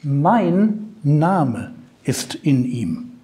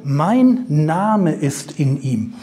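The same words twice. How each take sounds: First: Slow and weighty, leaning on mein; slow emphatic. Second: Slow and deliberate, mein leaned on; slow emphatic again. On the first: Preacher stressing the key words to the congregation, slow and weighty. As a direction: say mein Name ist in ihm slowly with the weight on mein. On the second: Preacher repeating the key phrase to the congregation, slow and deliberate. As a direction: repeat Mein Name ist in ihm slowly, stressing Mein. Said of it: "Mir geht's nur um diesen letzten Punkt". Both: Shown as a demonstration.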